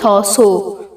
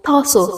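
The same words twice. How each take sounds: First: The final vowel is long and heavy. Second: The final vowel is short and light. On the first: The speaker calls it wrong. "نمیگیم تاسو" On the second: The speaker calls it right. "بسیار سبک و کوتاه"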